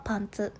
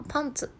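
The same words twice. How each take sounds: First: パンツ in the trousers tune, without an early drop; trousers intonation. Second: パンツ starting high, then falling; underwear intonation. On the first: Host separating trousers from underwear, パンツ with level intonation. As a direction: keep パンツ level to the end. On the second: Host separating underwear from trousers, パンツ high then falling. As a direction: stress パン and let ツ drop. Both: Shown as a demonstration. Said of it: "イントネーションは違うと思うので".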